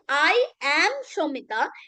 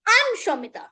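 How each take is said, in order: First: I am is said as two full words. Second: I am is contracted into one syllable. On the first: "Instead of doing that" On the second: "the native English speakers, they mix it"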